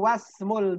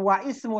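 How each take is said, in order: First: 'Wa' runs straight into 'smu' without a break. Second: A glottal stop separates 'wa' and 'ismu'. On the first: The speaker calls it right. "tapi wasmul binti Zainabu" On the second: The speaker calls it wrong. "Bukan wa ismu"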